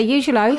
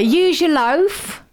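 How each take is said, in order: First: Said in the usual way. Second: "Use your loaf" stretched out slowly, "Use" pitched high; slow showcase phrase. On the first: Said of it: "Have you never heard anyone say". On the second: Shown as a demonstration. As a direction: lean on "Use" and draw the whole saying out. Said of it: "Okay, so say".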